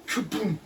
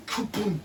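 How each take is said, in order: Both takes have the same delivery.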